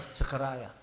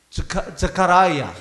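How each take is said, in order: First: 스카라야를 작고 가볍게 다시 발음; 스카라야, 조용히 한 번 더; 스카라야 부드럽게 반복. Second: 스카라야를 느리고 크게 또박또박 발음; 스카라야, 영어 발음 그대로 천천히; 영어식 발음. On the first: (스카라야 나직이 되뇌기) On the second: (스카라야 영어식으로 또박또박) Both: Shown as a demonstration. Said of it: "발음이".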